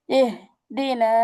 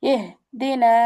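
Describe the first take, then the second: First: ইহদিনা said very slowly, the হ held from the throat; slow demo take. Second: Said in the usual way. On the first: Shown as a demonstration. Teacher repeating the word slowly for students, drawn-out demo. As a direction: draw out ইহদিনা, stretching every sound. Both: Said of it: "ছোট হা অর্থাৎ".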